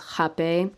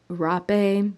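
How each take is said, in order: First: The word begins with an H sound. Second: The word begins with an R sound. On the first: It is the proper pronunciation. "the pronunciation is Hape" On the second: It follows the way the word is spelled.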